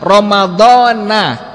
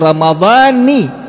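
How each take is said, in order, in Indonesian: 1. Kata ini diakhiri dengan vokal 'a'. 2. Kata ini diakhiri dengan vokal 'i'. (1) "ini salah" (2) "maka maknanya aku niat berpuasa bulan Ramadan tahun ini"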